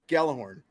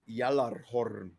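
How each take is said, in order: First: It is said with plain English sounds. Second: It is said with Norse sounds and rolled Rs. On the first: "that's how we say it in English" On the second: "That's how that's pronounced in Norse"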